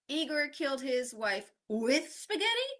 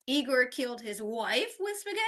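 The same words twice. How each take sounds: First: The word with carries the main stress. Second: The word wife carries the main stress. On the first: Spaghetti was the means, not the motive. "not for spaghetti or because of the spaghetti" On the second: The victim was his wife, not his mother. "not his mom"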